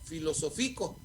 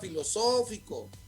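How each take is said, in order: First: The stress falls on the syllable fi. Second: The stress falls on the syllable so. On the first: The speaker calls it wrong. "Si no le pongo acento, entonces diría filosófico" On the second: The speaker calls it right. "es una palabra esdrújula"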